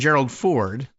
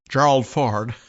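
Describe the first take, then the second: First: The name is said in a normal voice. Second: The name is said in a put-on voice.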